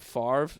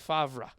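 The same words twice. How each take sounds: First: The R sound comes before the V. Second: The R sound comes after the V. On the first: The speaker calls it wrong. "Brett Favre pronounces his name Favre" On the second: The speaker calls it right. "The V comes before the R"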